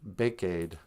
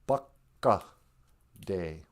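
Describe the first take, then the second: First: The first vowel sounds like ay. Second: The first vowel sounds like uh. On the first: The speaker calls it wrong. "It's not a bake-aid. That's how you'd read it in English" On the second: The speaker calls it right. "you got to remember that A's sound like uh. It's a bucka day"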